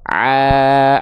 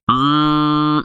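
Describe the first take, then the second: First: The sound stays out of the nose. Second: The sound goes through the nose. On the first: The speaker calls it right. "suaranya tetap sama-sama a" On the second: The speaker calls it wrong. "ini yang masuk hidung ya"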